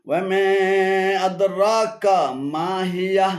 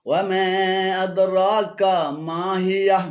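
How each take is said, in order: Both takes have the same delivery.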